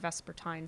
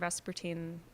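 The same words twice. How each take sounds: First: The word is said in a British way. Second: The word is said in a non-British way.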